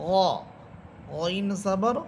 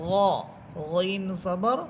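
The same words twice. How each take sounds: Both takes have the same delivery.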